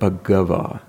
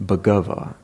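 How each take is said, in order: The two takes are said the same way.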